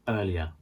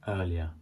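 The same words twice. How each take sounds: Both takes have the same delivery.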